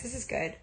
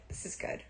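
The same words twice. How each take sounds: First: Said in the usual way. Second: Whispered to herself; hushed self-reassurance. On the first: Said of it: "repeats phrase". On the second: Real, not acted. Whispering to herself about the new job. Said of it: "repeats in whisper".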